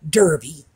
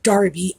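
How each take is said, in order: First: The first syllable sounds like 'der'. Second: The first syllable sounds like 'dar'. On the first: This is how the word is spelled. "spelled Derby, as in Kentucky Derby" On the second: This is how the British pronounce it. "but pronounced Darby, as in the fast food restaurant"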